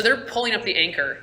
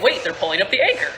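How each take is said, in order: First: Said in the usual way. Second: Quick, lightly acted alarm; mildly alarmed realization. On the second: Game master voices player noticing the anchor, quick mild alarm. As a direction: blurt it as a sudden realization. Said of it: "and you're like".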